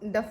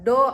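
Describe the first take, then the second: First: The word ends in an f sound. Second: The word ends in an open o vowel. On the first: "ಡಫ್ ಅಂತಾನೆ ಹೇಳೋದು" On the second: "ಡೋ ಅನ್ನಲ್ಲ"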